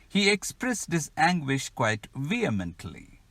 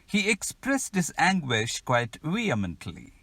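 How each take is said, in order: Both takes have the same delivery.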